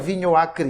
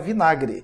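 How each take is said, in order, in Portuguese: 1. As duas palavras são ditas separadamente, cada uma completa. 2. As duas palavras se fundem em uma palavra mais curta. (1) "a gente não fala vinho acre" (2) "a gente fala vinagre"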